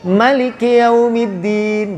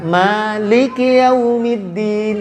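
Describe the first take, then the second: First: The first vowel of maliki is short. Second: The first vowel of maliki is long. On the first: This is the reading of the Qalun transmission. "Dia pendek" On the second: This is not the reading of the Qalun transmission.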